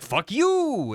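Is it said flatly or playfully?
playfully. It is said playfully, with a flourish.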